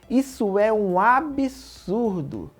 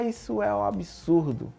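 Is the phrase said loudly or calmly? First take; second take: loudly; calmly. First: It is said loudly and with strong intensity. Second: It is said calmly and without intensity. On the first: It expresses strong indignation, like capital letters. "Absurdo em maiúsculo" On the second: It expresses only mild disapproval.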